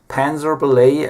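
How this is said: The name is pronounced in an American way.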